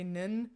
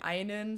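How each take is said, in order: First: The word is clipped to one short syllable. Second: The word is said in full, both syllables. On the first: This is a slightly dialectal habit. "sometimes I say nin. I shorten it" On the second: This is the standard German form. "instead of saying einen"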